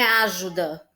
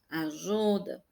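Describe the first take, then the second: First: The stress is on the first syllable. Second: The stress is on the middle syllable. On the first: The speaker calls it wrong. "não é o a que é mais forte" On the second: The speaker calls it right. "é o ju"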